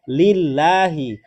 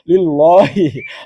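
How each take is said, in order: First: The 'l' of Allah is light and thin. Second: The 'l' of Allah is heavy and thick. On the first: The speaker calls it right. "maka dia tarqiq. Dibaca tipis" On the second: The speaker calls it wrong. "dia bacanya tafkhim, tebal"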